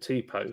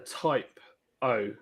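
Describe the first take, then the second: First: The first syllable sounds like 'tee'. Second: The first syllable sounds like 'type'. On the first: This is how the speaker always said it. "I've been calling it Tipo forever" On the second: This is how the film pronounced it. "when they pronounced it, they call it a typo, a type O"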